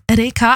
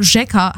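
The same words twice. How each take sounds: First: Reka said with a plain R at the start. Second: Rzeka with Polish rz, like zh; Polish pronunciation. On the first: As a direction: say Reka with an ordinary R, no zh sound. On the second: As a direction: say Rzeka the Polish way, starting ZHEH. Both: Shown as a demonstration. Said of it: "heißt auf Polnisch".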